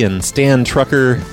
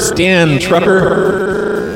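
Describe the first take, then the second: First: The voice sounds natural and unprocessed. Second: The voice sounds electronically altered by an effect.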